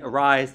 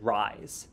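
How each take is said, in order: First: Said in the usual way. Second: "rise", arise with the first vowel left off; "rise" as a clipped-off error for arise; dropped sound. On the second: Shown as a demonstration. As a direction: say "rise" starting straight on the R. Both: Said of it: "they may have taken out a sound".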